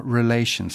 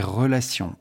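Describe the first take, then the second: First: "Relations" with an English r and vowels, not the French; English accent. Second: Said in the usual way. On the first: Pretend. Lecturer naming the R to viewers, mock English accent. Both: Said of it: "je vais prendre mon meilleur accent anglais".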